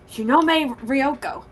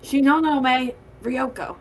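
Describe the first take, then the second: First: The first name is said with three syllables. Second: The first name is said with four syllables. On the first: The speaker calls it wrong. "You missed a no in there" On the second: The speaker calls it right.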